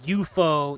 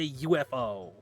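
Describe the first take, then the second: First: It is said as one word, you-fo. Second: It is said as three separate letters. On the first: The speaker calls it wrong. "no one says U F O" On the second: The speaker calls it right. "They say U F O"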